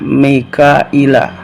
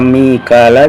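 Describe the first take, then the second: First: The name has a hamza and a 'y' glide. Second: The name has no hamza and no 'y' glide. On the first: "bi hamzatin lan hamzah wa ya'in lan ya" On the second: "ora Mikala"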